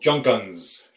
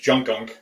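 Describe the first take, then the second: First: The name ends with an s sound. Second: The name ends with a k sound. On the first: "C Z in Hungarian uh, is pronounced like the S in its" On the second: "what we were pronouncing as Junkunk"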